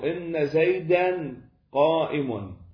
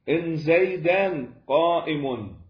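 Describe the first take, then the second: First: The first word has a long, doubled n sound. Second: The first word has a short, single n sound. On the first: "إن بالتجديد" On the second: "من تخففها نقدر نبقيها تعمل"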